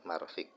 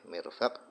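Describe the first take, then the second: First: The first syllable has an 'a' vowel. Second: The first syllable has an 'i' vowel. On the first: "boleh marfik, boleh dibalik" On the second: "Boleh mirfaq"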